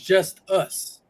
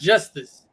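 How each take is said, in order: First: It is said as two words, 'just us'. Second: It is said as the single word 'justice'. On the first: The speaker calls it right. "It's just us" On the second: The speaker calls it wrong. "we're pronouncing his name wrong. It's not justice"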